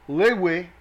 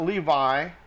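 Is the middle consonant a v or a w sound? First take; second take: w; v. First: The middle consonant is a w sound. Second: The middle consonant is a v sound. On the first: The speaker calls it right. "it's a waw, not a vav" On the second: The speaker calls it wrong. "not Levi"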